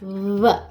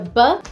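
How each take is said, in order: First: The lips nearly touch, letting air flow through. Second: The lips close fully, stopping the air. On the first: The speaker calls it right. "with the aproximante version of it, the v" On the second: The speaker calls it wrong. "So it's not so much a b"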